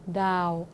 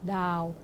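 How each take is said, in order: Both takes have the same delivery.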